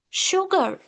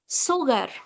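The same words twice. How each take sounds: First: The word begins with an 'sh' sound. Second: The word does not begin with 'sh'. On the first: The speaker calls it right. "I'm pronouncing it as sugar ... It's sha sound" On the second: The speaker calls it wrong. "but not sugar"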